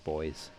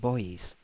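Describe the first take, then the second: First: Buoys is said the British way, like boys. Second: Buoys is said the American way, two syllables.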